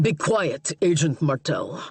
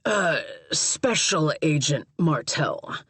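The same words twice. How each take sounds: First: Lightly voiced Russian accent; a hint of Russian accent, curt. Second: Special stressed, slow correcting tone. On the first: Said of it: "he said through a thick Russian accent". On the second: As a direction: lean on the word Special, slowly. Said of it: "Caleb corrected". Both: A narrator's reading.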